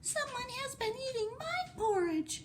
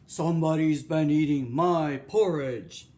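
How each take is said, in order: First: It is said in a tiny, small voice. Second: It is said in a deep, gruff voice.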